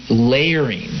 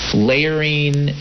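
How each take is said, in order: Both takes have the same delivery.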